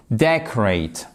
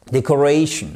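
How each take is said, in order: First: Decorate accented on "de"; stress on first syllable. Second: Decoration accented on "ra"; stress before "shun". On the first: Teacher contrasting verb and noun, decorate stressed on "de". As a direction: punch "de" in decorate, then drop away. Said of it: "sur la première syllabe". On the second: Teacher contrasting noun with verb, decoration stressed on "ra". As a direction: put the weight of decoration on "ra", just before "tion". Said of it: "juste avant le shun". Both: Shown as a demonstration.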